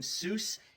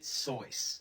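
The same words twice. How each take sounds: First: The name rhymes with 'deuce'. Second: The name rhymes with 'rejoice'. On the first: The speaker calls it wrong. "You're wrong as the deuce, ... If you're calling him Seuss" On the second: The speaker calls it right. "and you shouldn't rejoice ... he pronounces it Seuss"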